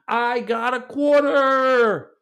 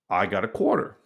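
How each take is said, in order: First: It is said with extra enthusiasm and energy. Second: It is said plainly, without extra energy.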